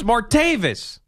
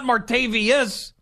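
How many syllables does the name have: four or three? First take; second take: three; four. First: The name is said with three syllables. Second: The name is said with four syllables. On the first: The speaker calls it right. "It's Martavis" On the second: The speaker calls it wrong. "but it's not Martavius"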